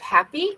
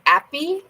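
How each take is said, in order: First: The starting h sound is clearly pronounced. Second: The starting h sound is left out. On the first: "instead of happy" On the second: "I find French people will drop their H"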